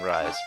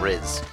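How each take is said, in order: First: The name has a long vowel, rhyming with eyes. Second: The name has a short vowel, rhyming with fizz. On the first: The speaker calls it wrong. "After all these years of saying Rise" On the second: The speaker calls it right. "the pro- proper pronunciation"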